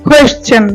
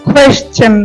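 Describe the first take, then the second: The two takes are said the same way.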